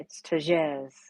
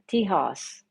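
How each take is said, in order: First: The middle consonant sounds like a J. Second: The middle consonant sounds like an H. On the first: This is how someone from India says the name. "if you're from India" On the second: This is how people locally say the name. "here we would pronounce that"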